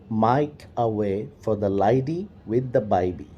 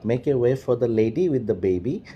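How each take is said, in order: First: It is said in an Australian accent. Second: It is said in a standard, non-Australian accent.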